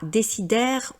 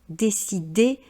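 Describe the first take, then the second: First: The ending is an open è with sounded r. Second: The ending is a plain é with silent r. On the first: The speaker calls it wrong. "et non pas" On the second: The speaker calls it right. "C'est bien le son et"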